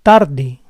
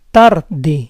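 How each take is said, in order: First: Said in the usual way. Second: Tarde split as TAR-de; syllable by syllable. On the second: Shown as a demonstration. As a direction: say Tarde in parts, stressing TAR. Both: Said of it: "try to understand the rules".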